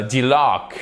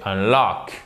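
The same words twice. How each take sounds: First: Delock said slowly as a mistaken example, starting dee-; slow, hesitant delock; wrong word demo. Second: Unlock said slowly and clearly, starting un-; slow, deliberate unlock; correct word demo. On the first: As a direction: offer delock as the wrong answer, drawn out. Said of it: "c'est pas, euh, delock". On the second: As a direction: give unlock as the right answer, drawn out. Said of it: "C'est unlock". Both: Shown as a demonstration.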